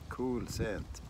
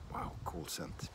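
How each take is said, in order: First: Said in the usual way. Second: Unvoiced hushed whisper of cool scent; soft whispered aside. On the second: Real, not acted. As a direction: breathe it out with no voice.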